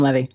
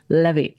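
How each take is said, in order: First: The name is said with an American pronunciation. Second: The name is said with a French pronunciation. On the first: "Just call him Levi. Because we're American" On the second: "If if you're actually wanting the French way"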